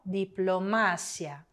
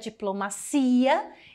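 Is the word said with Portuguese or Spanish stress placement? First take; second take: Spanish; Portuguese. First: The stress falls where Spanish places it. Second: The stress falls where Portuguese places it. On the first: This is the Spanish word. "em espanhol diplomácia" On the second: This is the Portuguese word. "em português é diplomacia"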